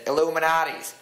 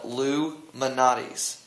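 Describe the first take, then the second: First: The name begins with an 'illu' sound. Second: The name begins with a separate 'Loo' sound. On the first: "Paige always said Illuminati's" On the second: "I say it like that"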